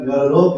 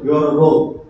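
First: It is said in a playful, teasing tone. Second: It is said in a stern, scolding tone.

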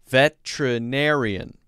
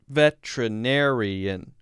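First: The word is said with five syllables. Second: The word is said with five syllables.

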